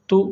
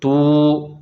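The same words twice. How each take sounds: First: तू with a short, unstretched u; short vowel. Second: तू with the oo drawn out long; long vowel. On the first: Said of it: "नहीं खींचना है". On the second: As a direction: hold and stretch the vowel of तू. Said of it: "तो खींचेंगे". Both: Shown as a demonstration.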